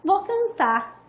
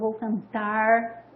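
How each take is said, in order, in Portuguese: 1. O R final é apagado e não se ouve. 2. O R final é curvado para trás, um som retroflexo. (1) "o que se predomina ... esse R, ele é, geralmente é suprimido" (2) "o R retroflexo"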